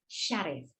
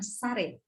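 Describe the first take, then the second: First: The name begins with an sh sound. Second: The name begins with a plain s sound. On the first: The speaker calls it right. "S Y" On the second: The speaker calls it wrong. "bukan Sarif"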